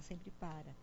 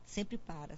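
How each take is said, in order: First: Much softer echo of the words; trailing off quietly. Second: Said in the usual way. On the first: Real, not acted. Echoing herself to patients, much softer. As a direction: let the repeat fade almost to nothing. Repeating the point, fading.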